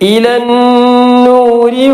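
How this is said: It keeps the final vowel and runs straight on. "അവിടെ വഖഫ് ചെയ്യുന്നില്ല എങ്കിൽ"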